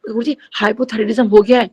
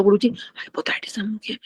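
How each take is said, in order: First: Retold attempt to speak up, fully voiced; a bit louder. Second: Barely audible whisper, as if the voice is gone; voiceless whisper. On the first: Devotee repeating herself to Guruji, speaking up a little. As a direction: mildly raise the voice to be heard. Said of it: "मैंने थोड़ा जोर से ऊंची बोला". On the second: Retold or imitated. Devotee with lost voice trying to tell Guruji, voiceless whisper. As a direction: force out words with no voice. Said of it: "आवाज तो निकल नहीं रही बिल्कुल भी".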